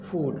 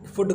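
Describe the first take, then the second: First: The vowel is long. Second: The vowel is short. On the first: The speaker calls it right. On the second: The speaker calls it wrong.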